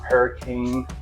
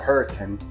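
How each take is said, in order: First: The name is said like the ordinary word. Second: The name is said the way locals say it.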